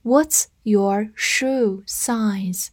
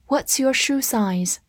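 First: Very slow, word by word; slow read-through. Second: Said in the usual way. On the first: Shown as a demonstration. Teacher modelling the shoe-size question for learners, slow read-through. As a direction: read it slowly with a gap after each word. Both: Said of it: "我们慢读一遍".

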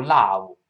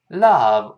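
First: "love" misread as "lao", with a wide ah-oo; wrong vowel. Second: "love" with a short open uh, as in cup; correct vowel. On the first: English teacher showing students what to avoid, wrong vowel. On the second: English teacher modelling love for students, correct vowel. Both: Shown as a demonstration. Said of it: "不要读love".

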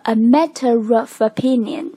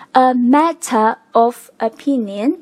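First: "matter of" joined as matte-rof; linked with r. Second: "a matter of opinion" slow, word by word; unlinked. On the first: Teacher showing the linked result with r. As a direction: run "a matter of opinion" together, r before "of". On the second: Teacher reading the phrase before linking, unlinked. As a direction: separate "matter" and "of", no r between. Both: Shown as a demonstration. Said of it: "连读之后就变成了".

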